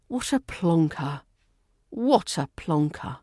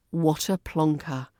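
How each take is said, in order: First: Lightly dramatic exasperation with a sigh; a hint of an exasperated sitcom character; Del Boy. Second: Said in the usual way. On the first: Shown as a demonstration. Teacher imitating a sitcom catchphrase, mildly exasperated. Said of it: "Say it like Del Boy, dramatic, exasperated".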